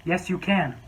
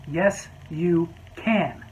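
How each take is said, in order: First: Said in the usual way. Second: Very slow, stubborn "can"; drawn-out insistence. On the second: Retold or imitated. Customer insisting to the waiter, very slow and stubborn. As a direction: drag it out stubbornly.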